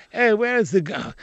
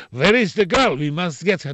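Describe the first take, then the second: First: The same line in a light English accent; English accent, only lightly put on. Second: Russian gangster accent, only lightly put on. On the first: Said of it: "Now I have to say". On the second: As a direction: give it a light Russian accent as the film villain. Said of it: "in Russian I used to say". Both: Shown as a demonstration.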